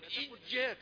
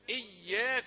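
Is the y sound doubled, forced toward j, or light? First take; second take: forced; doubled. First: The y sound is forced and drifts toward j. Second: The y sound is clearly doubled and held. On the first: It moves to another sound's place of articulation. The speaker calls it wrong. "لا تقل إياك، لأنك هكذا تنتقل إلى مخرج آخر، إلى مخرج الجيم" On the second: It is the intended word, 'you alone'. The speaker calls it right. "أقول إياك نعبد"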